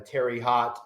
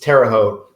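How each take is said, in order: First: The name is said the out-of-town way. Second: The name is said the local way. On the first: The speaker is from out of town. The speaker calls it wrong. "I know they're from out from out of town" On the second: The speaker is from the area. The speaker calls it right. "It's it's Terre Haute"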